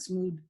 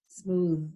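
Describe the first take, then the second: First: "smooth" ending in a hard d, like smood. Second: Said in the usual way. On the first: Shown as a demonstration. Teacher showing how not to say smooth. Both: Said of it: "it's not smooth".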